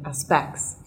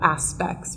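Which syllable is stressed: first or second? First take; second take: second; first. First: The stress is on the second syllable. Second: The stress is on the first syllable. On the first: The speaker calls it wrong. "rather than" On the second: The speaker calls it right. "we would place the stress on the first syllable"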